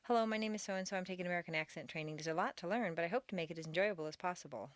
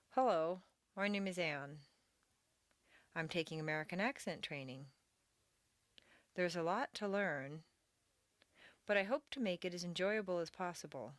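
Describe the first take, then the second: First: Fast, no pauses between sentences; rushed run-on reading. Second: Careful phrase-by-phrase model reading, weak vowels reduced; strong intonation peaks, small words reduced, pauses between phrases; reduced sounds. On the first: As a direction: rattle it off without any phrasing. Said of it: "You may find yourself reading the paragraph". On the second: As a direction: read it in linked word groups for students to repeat. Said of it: "Reading reduced sounds". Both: Shown as a demonstration.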